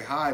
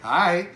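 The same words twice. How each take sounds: First: The word is said in a plain, neutral way. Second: The word is said in a sarcastic, mocking way.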